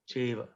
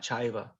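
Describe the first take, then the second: First: The first vowel is a plain 'e'. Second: The first vowel is the diphthong 'ai'. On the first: The speaker calls it right. "the more the E sound" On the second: The speaker calls it wrong. "not chaiva"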